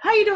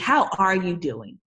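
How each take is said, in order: First: The greeting sounds flat and mechanical. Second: The greeting sounds warm and genuinely interested. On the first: The question is a routine formality. "kind of robotic" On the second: The asker really wants to know. "no, seriously"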